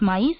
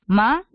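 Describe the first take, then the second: First: Said in the usual way. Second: "Maíz" split into "ma" and "íz" with a long pause between; syllable by syllable. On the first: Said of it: "cuando tú quieres separar en sílabas maíz". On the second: Shown as a demonstration. Teacher showing the student how to split maíz, syllable by syllable. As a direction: say "Maíz" in two separated beats, ma... íz, first one louder. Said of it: "lo vas a separar de la siguiente manera".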